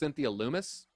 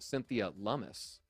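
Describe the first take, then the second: First: The surname begins with a long 'oo' vowel. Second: The surname begins with a short 'uh' vowel. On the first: This is how the speaker assumed the name was said. "I thought it was Cynthia Loomis" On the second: This is how a podcast host said the name. "pronounced it Cynthia Lummis"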